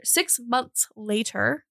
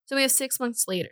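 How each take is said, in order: First: Slow, drawn-out SIX MONTHS LATER. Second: Said in the usual way. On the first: Real, not acted. Narrator correcting her rush through the timeline, slowed down. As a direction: stretch out "Six months later" at half speed. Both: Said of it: "I need to slow down".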